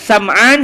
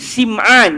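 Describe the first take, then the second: First: The first vowel is an 'a' sound. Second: The first vowel is an 'i' sound. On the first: "boleh baca baris atas" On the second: "dibaca dengan baris bawah pada huruf sin"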